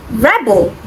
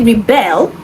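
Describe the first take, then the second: First: "rebel" with the stress on the first syllable. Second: "rebel" with the stress on the second syllable. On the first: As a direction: say "rebel" as the noun, REB-el. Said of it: "is on the first syllable". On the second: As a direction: say "rebel" as the verb, re-BEL. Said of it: "the stress is on the second syllable". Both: Shown as a demonstration.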